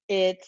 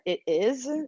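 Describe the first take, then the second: First: It is said as one contracted word. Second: It is said as two full words. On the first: The speaker calls it right. "We always say" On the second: The speaker calls it wrong. "they say"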